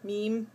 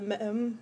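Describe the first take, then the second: First: The vowel is long, as in 'team'. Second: The vowel is short, as in 'them'. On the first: The speaker calls it right. "I know it's meme" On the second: The speaker calls it wrong. "I can never say that right"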